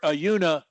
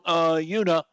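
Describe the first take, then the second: First: The uh sound is very short. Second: The uh sound is held medium long.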